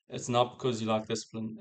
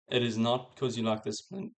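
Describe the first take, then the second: First: The opening words are contracted to "it's". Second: The opening words are said in full. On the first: The speaker calls it right. "I actually subconsciously just read it the way I would normally say it" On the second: The speaker calls it wrong. "it just sounds robotic as fuck"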